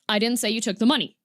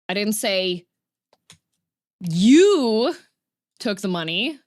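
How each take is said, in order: First: It is said flat, with no word stressed. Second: The stress falls on the word you. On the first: "if you just say it completely flat" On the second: "I said that somebody else took the money"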